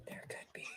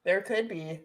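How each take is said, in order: First: Secretive breathy whisper. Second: Said in the usual way. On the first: Shown as a demonstration. Hinting at a honey story to her guest, whispered. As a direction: drop to a teasing whisper.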